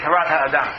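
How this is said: The title uses a Sephardic Hebrew pronunciation. "The Ramban is from Spain, so I'll say"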